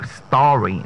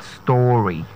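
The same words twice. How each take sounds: First: "story" said the standard way, STAW-ree; correct pronunciation. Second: "story" said the wrong way, vowel altered; mispronounced story. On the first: Coach giving the next word, correct pronunciation. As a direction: say "story" with long open aw. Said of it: "the next word is the word story". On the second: Coach showing what not to say, mispronunciation. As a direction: say "story" slowly with a closer, drawn-out o. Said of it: "not story". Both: Shown as a demonstration.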